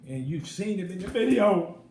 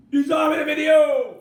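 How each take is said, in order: First: Louder, insistent point; emphatic. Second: Full-throated high shout. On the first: Vlogger insisting viewers saw it, raised voice. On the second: Vlogger shouting that viewers saw R. Kelly, full yell. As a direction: yell the point at the camera. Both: Real, not acted.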